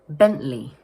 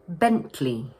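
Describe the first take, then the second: First: The middle T is replaced by a glottal stop. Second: The middle T is clearly pronounced. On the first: "dropping the middle T sound and instead using what we call a glottal stop" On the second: "So we pronounce it Bentley"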